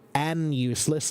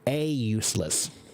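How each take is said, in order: First: An n sound comes before useless. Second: No n sound comes before useless. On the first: The speaker calls it wrong. "you don't say an useless" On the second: The speaker calls it right. "you say a useless"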